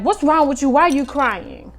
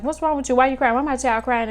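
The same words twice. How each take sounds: First: Raised, urgent demand from an alarmed mother; mama bear alarm. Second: Quick, raised repeat of the alarmed demand; mama bear alarm. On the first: Mother demanding why her crying daughter is upset, alarmed and loud. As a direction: snap into protective mama bear mode, louder and higher. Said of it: "The mama bear me instinctively was like". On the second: Mother re-enacting her first response to the crying child, urgently. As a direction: fire off the worried questions again. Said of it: "that's our first response". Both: Retold or imitated.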